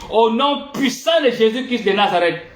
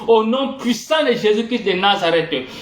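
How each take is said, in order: No difference in how they are said.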